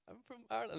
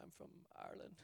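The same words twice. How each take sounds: First: High-pitched, nervous reply; frightened squeak. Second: Small, barely voiced reply; timid near-whisper. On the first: Retold or imitated. Answering the man with a gun, frightened squeak. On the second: Answering a stranger who stops him at the door, timid near-whisper. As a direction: say it under your breath, meekly.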